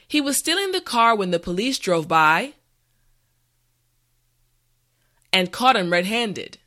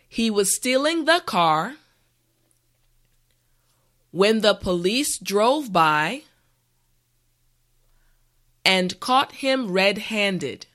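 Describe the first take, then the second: First: The sentence is said at a normal speed. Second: The sentence is said slowly and carefully. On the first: "the last time at a regular pace" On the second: "this time repeat after me"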